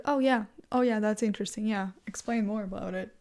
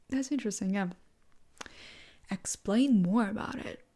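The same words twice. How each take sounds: First: Dismissive. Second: Showing interest. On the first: Answering someone in a political discussion, dismissive. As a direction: brush them off with mock interest. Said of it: "kinda make it in a dismissive way". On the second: Hearing out someone who disagrees on politics, showing interest. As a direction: invite them to explain, with pauses. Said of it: "you say". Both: Shown as a demonstration.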